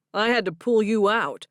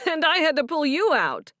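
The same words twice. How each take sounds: First: Firm fall on "pull", teasing; stress on pull. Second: High laughing retort hitting "you"; laughing comeback, stress on you. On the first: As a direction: lean on the word "pull". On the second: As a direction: laugh and punch "you" back at him. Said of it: "Stephen laughed". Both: Acted.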